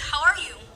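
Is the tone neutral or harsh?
neutral. It is asked in a plain, neutral tone.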